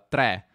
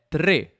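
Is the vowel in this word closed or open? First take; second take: open; closed. First: The vowel is an open e. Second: The vowel is a closed e. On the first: This is how it is commonly said in northern Italy. "con una E aperta" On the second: This is the standard pronunciation. "la pronuncia standard è tre"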